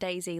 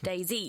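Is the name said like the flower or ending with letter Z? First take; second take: flower; letter Z. First: It sounds like the flower name daisy. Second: It ends with the letter name Z. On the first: The speaker calls it wrong. "It's not Daisy like little flower" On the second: The speaker calls it right. "D-Z, you know, letter"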